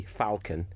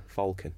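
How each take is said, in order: First: Falcon said as "fal-con"; short open "a" in falcon; funnier pronunciation. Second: Falcon said as "fawl-con"; rounded "aw" in falcon; less funny pronunciation. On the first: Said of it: "it always gets a bigger laugh". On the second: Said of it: "gets a bigger laugh than falcon". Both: Shown as a demonstration.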